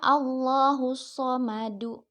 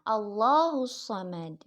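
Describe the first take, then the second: First: The phrase ends with a final -u vowel. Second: The phrase ends abruptly on a final d. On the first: This is the original form without a stop. "asal katanya dibaca Allahus Samadu" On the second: The reader stops at the end of the verse. "karena diwakafkan dalnya dimatikan jadi dibaca"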